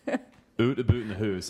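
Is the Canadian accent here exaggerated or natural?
exaggerated. It is said in an exaggerated stereotyped Canadian accent. This is how others imagine the speaker talks.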